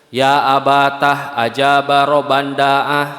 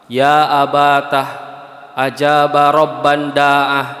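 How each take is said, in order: First: The phrase is read quickly without pausing. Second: The phrase is read slowly, line by line.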